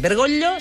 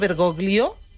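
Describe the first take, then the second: First: The 'gl' is a palatal 'll' sound. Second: The 'gl' is not a palatal 'll' sound. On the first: The speaker calls it right. "Bergoglio s'ha de pronunciar perquè, ... és una ella perquè és italià" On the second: The speaker calls it wrong. "no Bergoglio"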